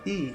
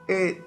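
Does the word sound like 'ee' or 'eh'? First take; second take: ee; eh. First: The vowel sounds like a closed 'ee'. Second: The vowel sounds like an open 'eh'. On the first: This is how it is said in Bahia. "na Bahia fala i" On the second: This is how it is said in other regions. "em outras regiões fala e"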